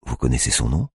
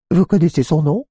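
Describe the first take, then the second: First: Said in the usual way. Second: Much higher, louder sing-song mimicry; mocking voice. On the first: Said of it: "répète-t-elle". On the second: A narrator's reading. Tiffany repeating the cop's question in a high mocking voice. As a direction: parrot his question to mock him. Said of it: "d'une voix moqueuse".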